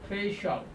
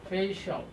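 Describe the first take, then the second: Both takes have the same delivery.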